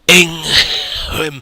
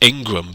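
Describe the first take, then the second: First: The name is said without a g sound. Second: The name is said with a g sound. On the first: "Try and say Ingram without pronouncing the G. It's really hard" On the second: "I always liked to pronounce it Ingram"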